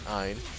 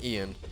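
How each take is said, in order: First: The name sounds like 'Ein'. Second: The name sounds like 'Ian'. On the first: The speaker calls it right. "apparently it's pronounced Ein" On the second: The speaker calls it wrong. "I mispronounced his name in the video. I said Kabam Ian"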